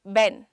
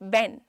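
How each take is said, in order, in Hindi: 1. यह b या v जैसी आवाज़ से शुरू होता है। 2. यह b या v जैसी आवाज़ से शुरू होता है।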